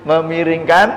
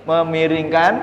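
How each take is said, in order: Both takes have the same delivery.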